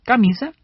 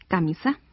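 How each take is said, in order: First: "Camisa" stressed on the middle syllable, ca-MI-sa; "Camisa" with its normal middle stress. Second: "camisa" wrongly stressed on the last syllable, cami-SÁ; "camisa" said as camisá. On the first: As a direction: lean on the "mi" of "Camisa". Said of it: "lleva el acento en mi". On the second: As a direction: hit the final "sa" of "camisa". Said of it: "Si estuviera en sa". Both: Shown as a demonstration.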